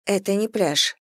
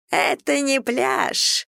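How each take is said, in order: First: Said in the usual way. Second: High, drawn-out mimicking little voice; mocking squeak. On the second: A narrator's reading. Brad mimicking Ellie's complaint, mocking squeak. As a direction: squeak it slowly, making fun of her. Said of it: "издевательским голоском пропищал Брэд".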